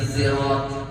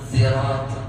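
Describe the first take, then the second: Both takes have the same delivery.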